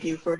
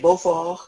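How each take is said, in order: First: The name has a local American pronunciation. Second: The name has a French pronunciation. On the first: This is how locals in the city say it. "People in Knoxville say Buford" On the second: This is how people abroad say it. "People in France say Beaufort"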